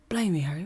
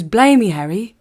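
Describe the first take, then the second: First: Said in the usual way. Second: Louder mock northern English Hagrid voice, a bit higher; Hagrid accent. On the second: Recalling Hagrid for viewers, a loud playful northern Hagrid impression. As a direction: belt out Blimey like a rough half-remembered Hagrid. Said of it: "He goes".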